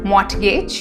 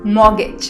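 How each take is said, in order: First: The R and T sounds are pronounced. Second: The R and T sounds are silent. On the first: The speaker calls it wrong. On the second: The speaker calls it right. "R and T are silent in this"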